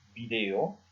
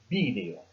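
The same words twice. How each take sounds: First: The stress is on the second syllable. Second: The stress is on the first syllable. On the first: "celle que je viens d'utiliser" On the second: "une prononciation où on insiste sur le i"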